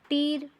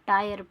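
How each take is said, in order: First: The vowel sounds like 'ee'. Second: The vowel sounds like 'eye'. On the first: The speaker calls it wrong. "टीर नहीं पढ़ते हैं" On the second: The speaker calls it right. "टायर पढ़ते हैं"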